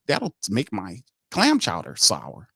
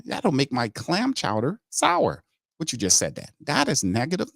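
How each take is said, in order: First: Said in the usual way. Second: Mock brass voice. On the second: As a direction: drag it out, lampooning the general manager. Repeats the mock line.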